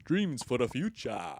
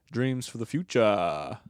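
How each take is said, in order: First: A hint of South African guy dreaming; South African accent. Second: Slow, put-on South African accent; lightly voiced South African guy. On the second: To listeners, his character in a South African accent.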